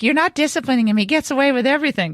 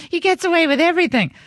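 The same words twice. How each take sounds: First: Upset daughter. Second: Higher, hammed-up whiny protest; mock upset daughter. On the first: Retold or imitated. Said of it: "Maria gets mad because she's like". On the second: Mother mocking her daughter's jealous complaint, higher whine. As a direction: imitate a sulking kid complaining. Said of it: "Maria gets mad".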